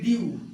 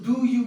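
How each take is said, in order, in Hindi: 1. दोनों शब्द मिलकर एक छोटा अक्षर बन जाते हैं। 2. दोनों शब्द पूरे और अलग-अलग बोले जाते हैं। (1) "इसको डू यू को क्या बोलेंगे ड्यू" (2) "अब ये तो सिंपल में बोल रहे हैं"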